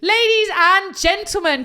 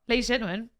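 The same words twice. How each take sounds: First: It is said loudly, with high energy. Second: It is said flatly, with little energy.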